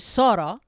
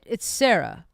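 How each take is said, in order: First: The name is said with Arabic pronunciation. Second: The name is said with English pronunciation. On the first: This is the name as the speaker prefers it. "if you can pronounce it" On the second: This is the easier version for those who struggle. "If you if you can't"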